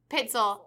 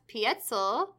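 First: The first vowel is a short ih sound. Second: The first vowel is a long ee sound. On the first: The speaker calls it right. "I'll say Pitzel" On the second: The speaker calls it wrong. "I think I'm saying that wrong"

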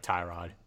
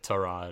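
First: The first syllable sounds like the word 'tie'. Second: The first syllable is a plain 'T' sound. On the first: The speaker calls it wrong. "instead of like Tyrod" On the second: The speaker calls it right. "it's actually Tyrod"

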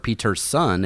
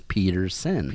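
First: The middle consonant is a T sound. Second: The middle consonant is a D sound. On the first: The speaker calls it wrong. "not Peterson" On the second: The speaker calls it right. "It's Pedersen. with a D"

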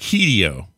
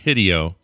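First: The first vowel is a long E sound. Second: The first vowel is a short I sound. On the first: The speaker calls it right. "The I is always pronounced with a long E sound" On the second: The speaker calls it wrong. "Not Hideo"

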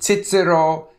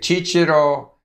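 First: It is said the Central European way. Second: It is said the Italian way. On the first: "Central Europeans say Cicero" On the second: "Italians say Cicero"

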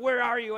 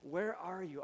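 First: It sounds threatening and accusing. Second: It sounds warm and loving.

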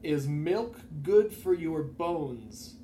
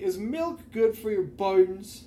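First: The words are pronounced in a normal way. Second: The words are pronounced in an unusual way. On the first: The speaker calls it right. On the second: The speaker calls it wrong.

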